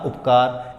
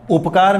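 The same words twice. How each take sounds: First: The first vowel is a short u. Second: The first vowel is a long u. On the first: The speaker calls it right. "हम कहते हैं सीधा सा उपकार, इसलिए हमारे पास क्या आया, छोटा उ" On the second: The speaker calls it wrong. "उपकार मैंने नहीं कहा"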